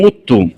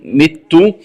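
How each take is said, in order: First: مت said "muttu"; damma on meem. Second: Said in the usual way. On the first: Shown as a demonstration. Teacher showing the variant, مت with opening u. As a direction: round the first vowel of مت to u. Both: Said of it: "قرأها بضم الميم".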